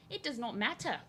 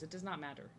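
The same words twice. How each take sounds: First: Higher mock-accented repeat, dropping the R in "matter"; mock accent, "matter" said as "mattah"; playful put-on accent. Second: Said in the usual way. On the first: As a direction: put on a higher non-rhotic accent for fun.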